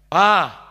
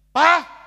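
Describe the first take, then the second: First: The call is moderately firm. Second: The call is sharp and angry.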